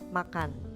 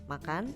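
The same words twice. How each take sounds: First: It is said with the tune of a statement. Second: It is said with the tune of a question. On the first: It gives information. "ketika diberi tanda titik, maka kata tersebut yaitu makan akan bernada seperti demikian" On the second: It asks something. "bila kata makan tadi diberi tanda tanya, tentunya kita semua tahu intonasinya akan berubah"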